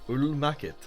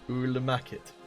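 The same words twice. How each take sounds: The two takes are said the same way.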